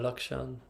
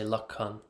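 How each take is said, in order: First: The middle is said with a 'ksh' sound. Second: The middle is said with a 'kh' sound.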